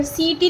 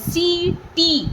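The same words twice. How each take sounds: First: Said in the usual way. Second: "सीटी" very slowly, both ee vowels held long; "सीटी" in two long syllables; stretched ee. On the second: Shown as a demonstration. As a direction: draw out "सी", then "टी". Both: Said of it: "सा को भी हम खींच रहे हैं".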